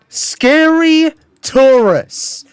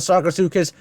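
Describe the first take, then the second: First: The name sounds like 'scary tourists'. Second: The name ends with a clear 'sukas' sound.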